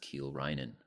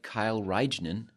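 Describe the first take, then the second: First: The first name sounds like 'Keel'. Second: The first name sounds like 'Kyle'. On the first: The speaker calls it right. "but it's" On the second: The speaker calls it wrong. "Kind of looks like"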